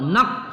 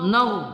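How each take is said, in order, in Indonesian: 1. Kata ini diakhiri bunyi k. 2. Kata ini diakhiri bunyi gh tenggorokan. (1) "jangan nar ke bawah atau nak, salah ya" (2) "nar pada ghain"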